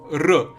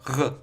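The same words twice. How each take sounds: First: The R is made at the front of the mouth. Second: The R is made deep in the throat. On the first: The speaker calls it right. "a normal R i- is like r" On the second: The speaker calls it wrong. "kind of like r. ... throaty ... coming from the throat"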